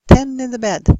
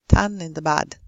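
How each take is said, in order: First: The vowel in the first word is closer. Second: The vowel in the first word is too open. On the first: The speaker calls it right. "make the e close enough" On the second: The speaker calls it wrong. "If e is too open, it becomes a"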